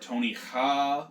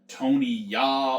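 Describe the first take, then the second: First: The surname begins with an h sound. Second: The surname begins with a y sound. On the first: "or Tony Ha" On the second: "not like Tony Ya"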